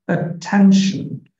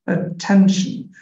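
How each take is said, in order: The two takes are said the same way.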